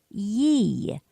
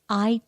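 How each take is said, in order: First: The first word sounds like 'yee'. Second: The first word sounds like 'eye'. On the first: "sometimes you will hear it pronounced Yi, Y E E" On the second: It is the slurred Western pronunciation. "then it's just an I"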